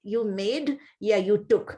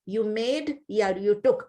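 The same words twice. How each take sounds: First: Slow, spaced English gloss; slow translation. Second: Slow, spaced gloss repeated. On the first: Teacher glossing the verse for her class, slow and spaced. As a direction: give each gloss slowly for students. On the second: Teacher repeating the gloss for her class, slow and spaced. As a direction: repeat the gloss slowly for students. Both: Shown as a demonstration. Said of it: "repeats translation slowly".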